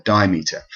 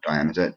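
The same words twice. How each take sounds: First: Dimeter said as DIE-meet-er; corrected pronunciation. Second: Diameter, run together like the circle measurement; mistaken pronunciation. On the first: Lecturer correcting the poetry term, corrected pronunciation. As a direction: say dimeter as two parts, die and meter. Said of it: "sorry, not diameter". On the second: Lecturer dismissing a slip in the term, mistaken pronunciation. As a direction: say diameter with stress on the AM. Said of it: "or dimeter, sorry, not diameter". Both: Shown as a demonstration.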